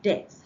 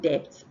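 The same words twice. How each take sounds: First: The B is silent. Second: The B is sounded. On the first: The speaker calls it right. "but debt" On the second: The speaker calls it wrong. "it's not debt"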